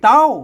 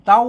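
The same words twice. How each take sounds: First: The syllable is said with the tri tone. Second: The syllable is said with the mid tone. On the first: "เสียงตีเต้า" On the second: "เสียงสามัญเต้า"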